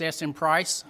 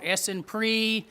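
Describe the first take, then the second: First: The name ends with the sound 'price'. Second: The name ends with the sound 'pree'. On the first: The speaker calls it right. "It's Essen price, price like the price tag" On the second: The speaker calls it wrong. "I've heard it called Essenpree"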